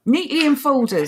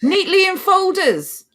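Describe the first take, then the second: First: Sarcastic echo, pitched up; sarcastic, raised pitch; sarcasm. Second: High, drawn-out mock wonder; exaggerated, incredulous singsong; overdone sarcasm. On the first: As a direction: repeat it in mock wonder, a little higher. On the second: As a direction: lay the sarcasm on thick, slow and high. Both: Real, not acted. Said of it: "did I overdo the sarcasm there".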